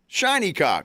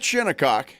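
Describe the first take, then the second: First: The first part sounds like the word 'shiny'. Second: The first syllable sounds like 'shin'. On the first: The speaker calls it wrong. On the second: The speaker calls it right. "not Shinnecock"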